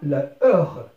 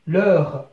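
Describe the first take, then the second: First: The article's vowel is kept before the noun. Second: The article's vowel is dropped before the noun. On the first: "أصلها la heure" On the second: "on a élidé le A"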